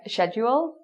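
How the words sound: It is said in a British accent. "in Britain you'd hear something like schedule"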